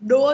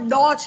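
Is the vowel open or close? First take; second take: close; open. First: The vowel is a close, narrow o. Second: The vowel is an open, wide o. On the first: The speaker calls it wrong. "ડો નથી" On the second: The speaker calls it right. "ડોક્ટરનો ડો છે"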